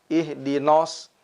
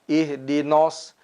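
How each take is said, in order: No difference in how they are said.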